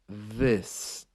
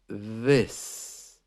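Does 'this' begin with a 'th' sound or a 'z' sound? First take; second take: th; th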